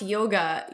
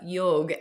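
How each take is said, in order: First: The word ends with a final vowel sound. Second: The word ends with a consonant, no final vowel. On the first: This is the Western way of saying it. The speaker calls it wrong. "Western uh, mispronunciation" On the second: This is how it is said in the Indian language. The speaker calls it right. "we pronounce yoga yog"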